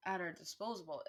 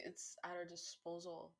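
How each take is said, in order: First: "disposable" said in place of disposal, four syllables; "at our disposable", the slip before the fix; misspoken word. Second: "disposal" said right, three syllables, a bit quieter; quick correction. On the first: Speaker misspeaks "disposable" while ranting about words. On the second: Speaker corrects "disposable" to "disposal", softer. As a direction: fix it to "disposal", softer, as an aside. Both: Real, not acted. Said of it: "Like, it's at our disposal".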